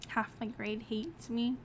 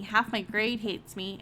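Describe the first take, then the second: First: Softer, slower echo of the line; stunned repeat. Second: Said in the usual way. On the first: Real, not acted. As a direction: repeat it under your breath, taken aback. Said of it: "repeats the line quietly, stunned".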